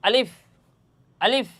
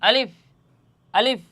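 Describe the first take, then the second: No difference in how they are said.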